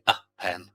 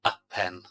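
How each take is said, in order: Both takes have the same delivery.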